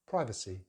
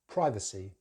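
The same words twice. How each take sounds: First: American accent, first vowel is an 'eye' sound. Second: The same.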